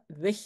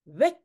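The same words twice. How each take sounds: First: Weg ending in a Dutch g; correct Dutch weg. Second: Weg ending in a hard k; the general's weg with a k; accented weg. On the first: Shown as a demonstration. Teacher shows how weg should sound in Dutch. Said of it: "ça doit être weg, avec un G". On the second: Acted. Teacher reads the general's weg with a Spanish-style k. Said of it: "normalement, en néerlandais, ça doit être weg".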